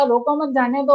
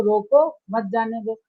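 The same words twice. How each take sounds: First: "रोको मत जाने दो" in one run, no pause after रोको; let-go phrasing. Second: "रोको, मत जाने दो" lower, split after रोको; stop-them phrasing. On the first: Official letting the speaker through, let-go phrasing. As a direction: join मत to रोको, moving on into जाने दो. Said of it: "मैं आया तो कहा". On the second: Official blocking the listener on arrival, stop-them phrasing. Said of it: "आप आए तो". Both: Shown as a demonstration.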